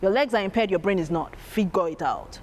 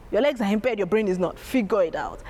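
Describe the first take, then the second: No difference in how they are said.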